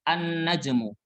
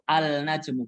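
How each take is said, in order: First: The 'l' is silent, going straight into 'n'. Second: The 'l' is clearly pronounced before 'n'. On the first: The speaker calls it right. "Cara baca yang benar adalah langsung masuk ke huruf nun" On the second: The speaker calls it wrong. "Ini cara baca yang salah"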